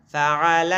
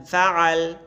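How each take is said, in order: First: فعل chanted "fa-'a-la", ending open; full final vowel. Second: فعل said "fa-'al", closed on l; pausal ending. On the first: Quran teacher spelling for pupils, فعل with every vowel, "fa'ala". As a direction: draw out فعل with the last a sounded. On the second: Quran teacher demonstrating waqf, فعل ending consonant-final as "fa'al". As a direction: drop the last vowel of فعل, resting on the l. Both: Shown as a demonstration. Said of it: "ببینیم وقف اسکان شد".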